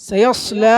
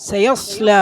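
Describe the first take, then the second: No difference in how they are said.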